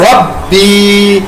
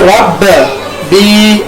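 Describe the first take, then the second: First: The b sound is said smoothly without echo. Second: The b sound gets a bouncing echo. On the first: The speaker calls it right. "यहाँ पर हम सिंपल पढ़ेंगे रब्बी" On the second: The speaker calls it wrong. "इसको रब बी ऐसे नहीं पढ़ना"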